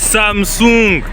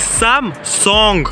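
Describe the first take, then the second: First: The word is said with a French pronunciation. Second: The word is said with a Korean pronunciation. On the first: The speaker calls it wrong. "Nous on est là, on dit Samsung" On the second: The speaker calls it right. "C'est Samsung"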